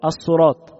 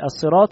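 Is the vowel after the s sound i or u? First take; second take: u; i. First: The s sound is followed by u. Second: The s sound is followed by i. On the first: The speaker calls it wrong. "يضم الصاد في كلمة الصراط" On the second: The speaker calls it right. "بدل ما يقول الصراط"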